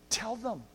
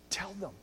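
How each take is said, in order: First: Repeated with more voice on "them"; second, firmer urging. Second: Much softer, almost breathed; hushed push to tell others; soft urging. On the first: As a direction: press "Tell them" a little harder. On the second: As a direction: drop right down and urge it quietly. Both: Shown as a demonstration.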